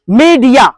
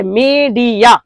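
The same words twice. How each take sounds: First: Said in the usual way. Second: मीडिया drawn out slowly as मी-डि-या; split into three syllables. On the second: Shown as a demonstration. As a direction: stretch each of the three beats in मीडिया. (मीडिया को तीन खंडों में धीरे-धीरे) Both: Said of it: "तीन से level हो गया".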